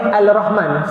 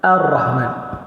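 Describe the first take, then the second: First: The l sound is pronounced before the r. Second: The l merges into a doubled r sound. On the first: The speaker calls it wrong. "Salah. Cara sebut tu tak betul" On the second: The speaker calls it right.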